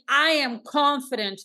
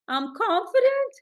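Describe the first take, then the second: First: It is said in a firm, confident voice. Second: It is said in a hesitant, unsure voice. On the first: The speaker calls it right. "instead of saying" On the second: The speaker calls it wrong. "they're saying"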